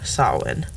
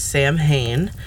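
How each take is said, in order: First: It is said the Old Irish way. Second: It is said the common American way. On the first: "All of these names come from our old Irish" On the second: "In American media, you might have heard it pronounced as"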